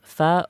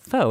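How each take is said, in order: First: The word is said with a Vietnamese pronunciation. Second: The word is said with an American pronunciation.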